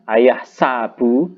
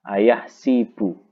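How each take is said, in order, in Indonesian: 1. Vokal setelah s adalah a. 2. Vokal setelah s adalah i. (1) "sa-nya dibaca fathah"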